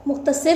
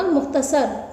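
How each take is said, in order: First: मुख्तसर with a short i in the last syllable, "-sir"; wrong pronunciation. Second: मुख्तसर with a short a in the last syllable, "-sar"; correct pronunciation. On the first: (मुख्तसर का ग़लत तलफ़्फ़ुज़, आख़िर में "सिर") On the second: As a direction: say मुख्तसर as "mukhtasar". (मुख्तसर का सही तलफ़्फ़ुज़, आख़िर में "सर") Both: Shown as a demonstration. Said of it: "नहीं होता".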